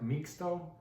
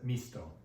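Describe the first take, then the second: First: The x is sounded as ks. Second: The x is sounded as s. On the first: The speaker calls it wrong. "it looks like mixto" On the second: The speaker calls it right. "but you pronounce it misto"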